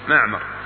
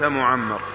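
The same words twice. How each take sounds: First: The m sound is short and not doubled. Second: The m sound is doubled and held longer. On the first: The speaker calls it right. "وتخفيف الميم" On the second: The speaker calls it wrong. "وليس معمر"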